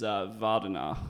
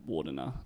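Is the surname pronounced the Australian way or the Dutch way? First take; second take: Dutch; Australian. First: The surname is pronounced the Dutch way. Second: The surname is pronounced the Australian way. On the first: "the Dutch pronunciation" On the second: "to play Aussies"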